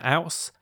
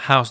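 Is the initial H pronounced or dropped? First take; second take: dropped; pronounced. First: The initial H is dropped, Cockney style. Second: The initial H is pronounced.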